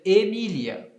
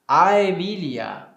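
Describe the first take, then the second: First: The word begins with a plain E sound. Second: The word begins with an A-E diphthong. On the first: "no latim eclesiástico" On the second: "no latim clássico ... formado justamente deste ditongo"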